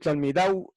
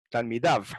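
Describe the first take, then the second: First: The word ends with a w-like sound. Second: The word ends with a v sound. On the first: This is the ancient Hebrew form. "lo pronuncio con W" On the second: This is the modern Hebrew form. "como con V de victoria"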